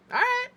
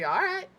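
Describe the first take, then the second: First: Extremely high squeaky all right; mad, helium-high. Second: High-pitched rising all right; first step up into a high, irritated voice; mad, getting higher. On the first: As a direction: push the pitch right to the top. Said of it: "sound like I sucked helium". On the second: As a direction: demonstrate anger by lifting the pitch. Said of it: "It gets higher and higher". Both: Shown as a demonstration.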